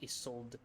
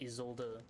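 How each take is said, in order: First: The final E is silent. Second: The final E is sounded out. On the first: The speaker calls it wrong. "It shouldn't be Isolde" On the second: The speaker calls it right. "German sounds out the E at the end"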